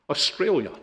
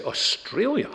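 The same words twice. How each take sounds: First: Offhand answer, light rise then drop; retold casual reply. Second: High, sharply rising question; astonished retold question, pitch leaping up; incredulous echo. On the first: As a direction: toss it out casually. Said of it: "He says casually". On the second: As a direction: repeat it back in disbelief. Father echoes answer in disbelief.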